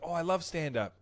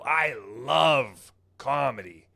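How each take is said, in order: First: It is said in a casual, normal tone. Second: It is said in an intense, overeager tone.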